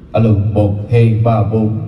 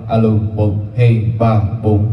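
Both takes have the same delivery.

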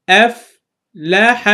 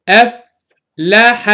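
Both takes have the same delivery.

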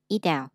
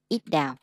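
First: The t between the words sounds like d. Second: The t between the words sounds like d.

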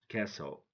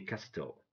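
First: The T is silent. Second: The T is pronounced. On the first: The speaker calls it right. "We don't pronounce the middle one" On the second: The speaker calls it wrong. "don't say castle"

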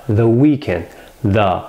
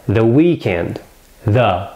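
Both takes have the same delivery.

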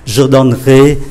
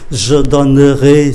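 First: The middle vowel of donnerai is dropped. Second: The middle vowel of donnerai is pronounced slowly. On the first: This is how it is said in real speech. "phải phát âm cho nó chuẩn là như thế này" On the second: It shows how the stem and ending combine. "tôi đọc chậm để cho mọi người thấy"

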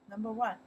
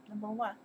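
The two takes are said the same way.

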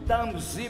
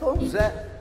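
First: The name is said with an American accent. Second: The name is said with a Brazilian accent. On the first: This is how people abroad say the name. The speaker calls it wrong. "Nos Estados Unidos ... É aqueles diretores de centro cultural, [name] pra lá" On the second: This is how people at home say the name. The speaker calls it right. "aqui no Brasil, qualquer criança analfabeta aí da periferia sabe que tem o Tom Zezé"

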